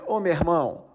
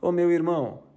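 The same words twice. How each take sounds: First: The R in irmão is strong and heavy. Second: The R in irmão is soft and light. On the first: "eles carregam no R" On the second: "Se fosse aqui, a gente ia falar"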